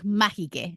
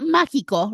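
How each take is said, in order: First: The word ends with an 'eh' sound. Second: The word ends with an 'oh' sound. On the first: It imitates a comedian's silly voice. "he would pronounce it like that, like mágique" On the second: It is the ordinary way to say it. "not mágico"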